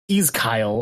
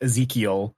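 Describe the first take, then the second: First: The middle of the name sounds like 'kyle'. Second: The middle of the name sounds like 'kee'. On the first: The speaker calls it wrong. "there's Kyle in the middle of his name" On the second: The speaker calls it right. "instead of just fucking just going with"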